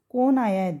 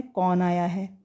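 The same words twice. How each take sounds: First: कौन wrongly said as 'kone', closed o; mispronounced o vowel. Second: कौन with an open 'au', like 'kawn'; correct au vowel. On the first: Retold or imitated. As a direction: imitate people saying 'kone' for कौन. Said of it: "कौन की मात्रा तो ओ की मात्रा हुई". (कौन को गलत 'कोन' बोलें) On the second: Shown as a demonstration. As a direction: say कौन as 'kawn', not 'kone'. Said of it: "हमने बोलना है". (कौन में साफ़ 'औ' की ध्वनि)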